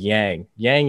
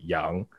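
First: The name has a heavy, harsh anglicized pronunciation. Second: The name has a softer Asian-style pronunciation. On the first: The speaker calls it wrong. "so kind of heavy and harsh as like an anglicized version" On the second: The speaker calls it right. "in reality it's more pronounced like Yang"

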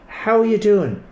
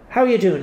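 First: It is said with marked inflection and sincere emphasis. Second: It is said quickly and casually, as a brush-off. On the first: The asker genuinely wants to know. The speaker calls it right. "When you say it a second time, with inflections going on" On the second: The asker does not really want an answer. The speaker calls it wrong. "Because it's a real brush"

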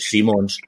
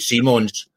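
First: The name is said with a Dutch pronunciation. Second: The name is said with an English pronunciation.

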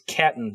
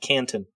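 First: It has no n sound before the t. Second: It has an n sound before the t. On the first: The speaker calls it right. "It's Catton" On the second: The speaker calls it wrong. "not Canton"

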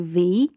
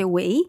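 First: The word begins with a V-like sound. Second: The word begins with a W sound. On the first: "They would say" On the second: "we say"

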